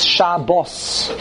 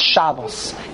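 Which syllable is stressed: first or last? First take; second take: last; first. First: The stress is on the last syllable. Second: The stress is on the first syllable. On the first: The speaker calls it right. "It's Milara" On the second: The speaker calls it wrong. "there's no such thing as Shabbos"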